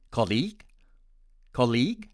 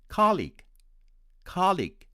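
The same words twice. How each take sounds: First: Colleague stressed on the second syllable, col-LEAGUE; Indian English stress. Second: Colleague stressed on the first syllable, COL-league, high start; American stress. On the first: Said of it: "with stress on the second syllable". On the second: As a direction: hit COL in colleague and let it fall. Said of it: "with stress on the first syllable". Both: Shown as a demonstration.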